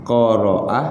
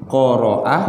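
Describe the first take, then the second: The two takes are said the same way.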